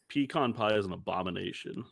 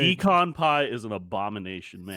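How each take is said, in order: First: It is said at normal volume. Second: It is said loudly, projected to the back.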